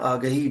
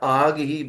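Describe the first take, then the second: First: It is said as one joined word, aagahi. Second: It is split into two words, aag and hi. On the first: Everywhere you went, you spread awareness. The speaker calls it right. "आगही is a Persian word which means awareness" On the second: Everywhere you went, you spread only fire. The speaker calls it wrong. "पढ़ने वाला इसको गलत pronounce कर दे, तो ये मिसरा यूं पढ़ा जाएगा"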